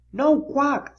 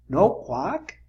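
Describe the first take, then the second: First: Splat's no quack. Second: A plain rising question as Spike; Spike asking. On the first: Splat reporting the silent duck, higher. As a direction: say it as Splat, raised. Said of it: "said Splat". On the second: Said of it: "asked Spike". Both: A narrator's reading.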